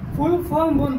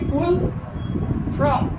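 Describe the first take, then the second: First: The second word is said as 'form'. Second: The second word is said as 'from'. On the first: "full ফর্ম বলতে গিয়ে" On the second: "উনি বলছেন কি ফুল ফ্রম"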